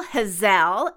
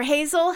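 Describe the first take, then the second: First: Hazel said "huh-ZELL"; Hazelle pronunciation. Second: Said in the usual way. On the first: Shown as a demonstration. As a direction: stress the second syllable of Hazel, rhyming with gazelle. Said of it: "H A Z E L L E".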